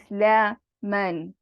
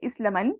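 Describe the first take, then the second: First: The vowel before the alif is lengthened. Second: The vowel before the alif is short. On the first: The speaker calls it right. "There's an elongation" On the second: The speaker calls it wrong. "Instead of say"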